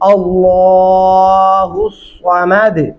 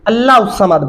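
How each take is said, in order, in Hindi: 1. 'Allah' को आखिर में 'u' स्वर के साथ पढ़ा जाता है। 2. 'Allah' को आखिर में 'u' स्वर के बिना पढ़ा जाता है। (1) "सही तरीका क्या है?" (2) "ये पढ़ना गलत होगा।"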